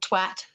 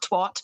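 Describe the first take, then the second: First: The word is said with a British pronunciation. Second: The word is said with a non-British pronunciation. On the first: "like a person from the U K" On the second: "not twat"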